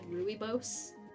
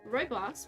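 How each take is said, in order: First: It is pronounced the way it is spelled. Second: It uses the standard, looked-up pronunciation. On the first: The speaker calls it wrong. "it looks like it should be said rooibos" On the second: The speaker calls it right. "which I've looked up how to pronounce it, which is why I say it like that"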